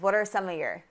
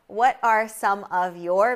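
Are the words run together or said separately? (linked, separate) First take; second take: linked; separate. First: The words are linked together in connected speech. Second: Each word is said clearly and separately.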